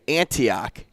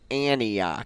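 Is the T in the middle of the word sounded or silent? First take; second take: sounded; silent. First: The T sound in the middle is clearly pronounced. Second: The T sound in the middle is dropped. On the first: This comes across better on radio and television. "because I pronounce and enunciate words" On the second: This is how the locals say it. "so you don't say the T"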